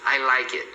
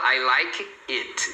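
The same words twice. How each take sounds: First: The words run together without breaks. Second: Each word is said separately, apart. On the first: The speaker calls it right. "você sempre vai pronunciar assim" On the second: The speaker calls it wrong. "Nunca fala I like it. Nunca separa"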